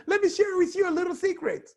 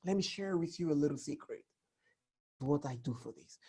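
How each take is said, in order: First: Chirpy high, rushed announcement; squeaky quick blurt; high fast tell-all; wrong way, high and fast. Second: Soft, fast confiding murmur; hushed secret-telling; secretive hush. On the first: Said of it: "when you're sharing secret, you won't tell people". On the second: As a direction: lean in and share it quietly. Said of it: "So the voice is important". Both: Shown as a demonstration.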